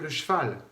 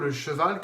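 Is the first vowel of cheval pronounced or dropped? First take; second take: dropped; pronounced. First: The mute e is dropped, squeezing the syllables. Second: Every syllable is articulated, including the mute e. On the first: The speaker calls it wrong. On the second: The speaker calls it right. "dites plutôt"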